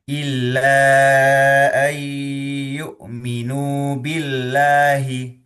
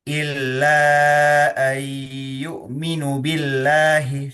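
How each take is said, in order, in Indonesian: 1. Vokal pada 'nu' panjang. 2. Vokal pada 'nu' pendek. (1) "nunya dibaca panjang ya" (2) "Itu sebetulnya kacau"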